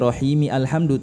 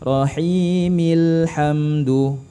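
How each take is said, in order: First: The article 'al' is pronounced as a separate syllable. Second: The 'l' joins the preceding word without separate 'al'. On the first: The speaker calls it wrong. "bukan lagi rahimi alhamdu" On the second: The speaker calls it right. "tapi rahimil hamdu"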